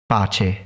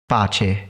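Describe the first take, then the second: The two takes are said the same way.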